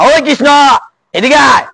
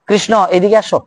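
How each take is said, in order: First: The call is rough and harsh. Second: The call is soft and sweet. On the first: The speaker calls it wrong. "কর্কশ না, ... এরকম না।" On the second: The speaker calls it right. "মানে সুমধুর কণ্ঠে, সুললিত কণ্ঠে।"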